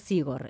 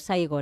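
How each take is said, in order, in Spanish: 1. La primera sílaba tiene una 'i' simple. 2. La primera sílaba tiene el diptongo 'ai'. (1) "no Sigor" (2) "Saigor, no Sigor"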